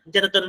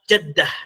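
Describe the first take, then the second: First: The word ends with a full -atun ending. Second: The word ends short with a final -ah. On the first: This form is rarely used in everyday speech. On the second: This is how Arabs commonly say it. "mereka mengucapkan apa? Jaddah"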